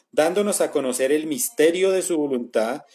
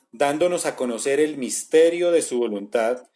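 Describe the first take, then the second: Both takes have the same delivery.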